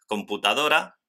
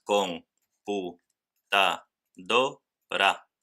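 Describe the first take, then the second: First: Said in the usual way. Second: "con pu, ta, do, ra" in five separate pieces; split into syllables. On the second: Shown as a demonstration. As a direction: pause after every syllable of "con pu, ta, do, ra". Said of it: "cinco sílabas". ("con pu, ta, do, ra" sílaba por sílaba)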